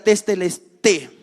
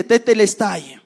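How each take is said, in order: First: Testelesté with the final "ai" reduced to a plain "e", ending "-té"; testelesté pronounced with e in place of the diphthong. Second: Tetelestai with the final diphthong "ai" kept, ending in "tai"; literal Greek reading. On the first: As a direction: say testelesté, closing on a short e. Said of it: "solo se pronuncia como e". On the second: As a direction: read tetelestai letter by letter, ending on "ai". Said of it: "ahí literalmente". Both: Shown as a demonstration.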